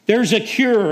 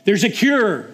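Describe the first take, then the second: First: Even louder and higher, the call pushed further; louder joyful shout. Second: Joyful shout. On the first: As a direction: call it out again with more force. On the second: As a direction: shout it out to the whole camp. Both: Acted. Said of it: "and he's shouting".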